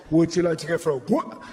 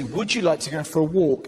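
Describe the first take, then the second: First: Excited dog-owner voice. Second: Said in the usual way. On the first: Retold or imitated. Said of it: "all you have to say is". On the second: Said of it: "where you say".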